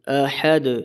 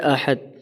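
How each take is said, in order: First: The final d has a slight echoing bounce. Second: The final d is stopped with no bounce. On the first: The speaker calls it right. "दुरुस्त पढ़ने का तरीका है" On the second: The speaker calls it wrong. "ये इस तरह पढ़ा जाता है। ये गलत है।"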